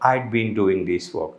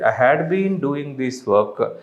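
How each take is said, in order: First: The word 'had' is shortened onto 'I'. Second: The word 'had' is said in full.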